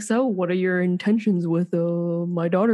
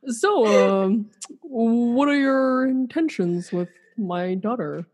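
First: Stern dad asking intentions; a hint of a protective father; overprotective dad. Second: Slow, stern dad asking intentions; overprotective dad. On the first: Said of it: "And be like". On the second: Pretend. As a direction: play the protective father, half laughing. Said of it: "I'll be Dirk".

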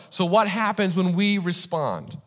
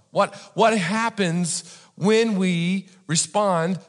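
First: Said in the usual way. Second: "when we respond" drawn out with pauses; slow emphatic repeat. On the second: Real, not acted. Preacher repeating the question to congregation, slow and emphatic. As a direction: spell out "what happens when we respond" slowly, in separate chunks.

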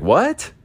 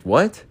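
First: Mock the deaf dad totally lost; baffled dad. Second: The hard-of-hearing dad not catching a word; puzzled dad. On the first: Dad hearing basura twice, a high, baffled what. Dad can't hear Spanish. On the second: Retold or imitated. Dad not catching the Spanish, rising puzzled what.

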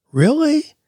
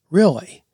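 First: REALLY much higher, rising into a doubting question. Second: REALLY falling at the end, stated as assurance; affirming REALLY. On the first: Host shows how emphasis changes meaning, REALLY as high question. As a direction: lift "Really?" right up as a sceptical question. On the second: Host shows the other meaning, REALLY as a falling statement. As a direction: say "Really" with a falling tune, as a confirmation. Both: Shown as a demonstration. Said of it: "changing how you emphasize the last part of it".

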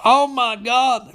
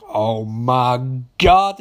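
First: High, drawn-out exclamation; mock shock. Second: Very slow, drawn-out realisation; mock dread. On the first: Recapper reacting to the phone call, mock-shocked. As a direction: wail it in hammed-up disbelief. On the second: Mildred hearing of seven murdered nurses, mock-horrified. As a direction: stretch each word with hammed-up weight. Acts Mildred's reaction to massacre.

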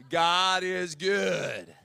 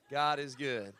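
First: "God is good" drawn out very slowly and louder; very slow English. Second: Laughing. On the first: Preacher giving the English, drawn out very slowly. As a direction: stretch each word of "God is good". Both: Shown as a demonstration. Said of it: "we just say it in English".

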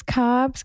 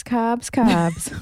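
First: Said in the usual way. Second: Put-on playful Boston accent on carbs; a quick jokey Boston accent. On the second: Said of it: "my Boston accent".

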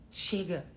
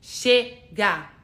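First: Said in the usual way. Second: Chega shouted out loud as a war cry; battle cry shout. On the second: Shown as a demonstration. Coach showing viewers the battle cry, loudly. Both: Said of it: "Aquela assim".

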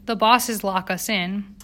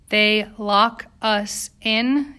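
First: Said in the usual way. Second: Very slow, each word set apart; very distinctly. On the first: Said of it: "Yetta said very distinctly". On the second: A narrator's reading. Striker fearing her English wasn't clear enough, very distinct. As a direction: spell it out word by word. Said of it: "Yetta said very distinctly, as if she'd feared".

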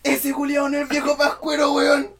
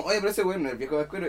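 First: Put-on high, loud child's outcry; retold yell. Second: Said in the usual way. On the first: Kid exposing a fake Santa, high loud yell. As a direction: yell it out high to the whole crowd. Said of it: "y grité así". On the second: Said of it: "estaba gritando así como".

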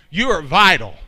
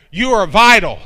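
First: Said in the usual way. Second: Louder, stress on "vital"; emphatic. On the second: Shown as a demonstration. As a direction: punch "vital" hard the second time.

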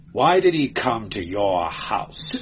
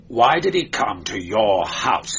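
First: Said in the usual way. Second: Sharper repeat. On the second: A narrator's reading. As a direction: press the question harder. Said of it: "snapped Demetrio".

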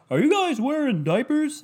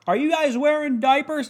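First: High, off-key host voice, clearly not him; bad Steve Harvey impression. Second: High-pitched mock host asking the girls; a lightly done Steve Harvey, pitched up; Steve Harvey impression. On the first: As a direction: attempt his voice and miss, pitched up. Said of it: "It doesn't sound like Steve Harvey". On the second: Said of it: "In his fucking voice, I gotta do it".

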